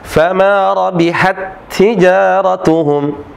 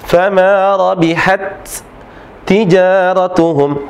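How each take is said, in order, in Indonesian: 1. Dua bunyi t itu menyatu menjadi satu t ganda. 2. Dua bunyi t itu dilafalkan secara terpisah. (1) "dibaca seperti huruf yang kedua dengan disertai tasydid" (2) "tidak dibaca fama rabihat tijaratuhum"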